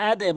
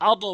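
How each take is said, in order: First: আদে bounced downward to a short "e"; correct qalqalah. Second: আদ echoed as a rounded "ado"; mistaken qalqalah. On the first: Teacher showing learners the required form, আদে with "e" bounce. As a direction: say আদে with a light "e" echo on the d. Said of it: "আদে বলতে হবে". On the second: Teacher warning learners what not to say, আদ as "ado". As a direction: release the d of আদ into a wrong "o". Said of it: "আদ বলা যাবে না". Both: Shown as a demonstration.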